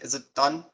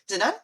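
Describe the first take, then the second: First: It is said in a deeper voice. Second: It is said in a higher voice.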